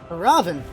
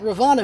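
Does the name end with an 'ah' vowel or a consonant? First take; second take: consonant; ah vowel. First: The name ends on the consonant 'n'. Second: The name ends with a final 'ah' vowel. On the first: "who says Ravan" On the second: "some people pronounce the A at the end of Hindu names"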